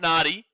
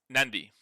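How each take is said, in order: First: No n sound comes before the d. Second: An n sound comes before the d. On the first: The speaker calls it wrong. "not Nadi" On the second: The speaker calls it right. "the pronunciation is with an N, so it becomes Nandi"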